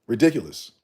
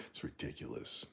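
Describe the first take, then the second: First: Ridiculous said out louder, falling firmly. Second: Soft, near-voiceless ridiculous under breath; quiet ridiculous. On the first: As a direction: land ridiculous with force. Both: Real, not acted.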